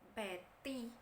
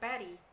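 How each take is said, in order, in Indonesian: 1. Konsonan di tengah itu bunyi T yang jelas. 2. Konsonan di tengah itu bunyi D yang lembut.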